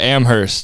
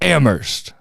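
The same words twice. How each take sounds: First: The H sound in the middle is pronounced. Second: The H sound in the middle is silent. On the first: The speaker calls it wrong. "when I pronounce it with the H" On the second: The speaker calls it right. "He's like, it's Amherst"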